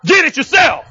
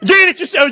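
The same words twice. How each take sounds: First: Higher, firm and commanding; commanding retort to a rude guest; with authority. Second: Higher, louder firm retort; with authority. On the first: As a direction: say it like you mean it, with authority. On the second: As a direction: put some authority behind it. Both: Shown as a demonstration. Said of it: "You got to say it with some authority now".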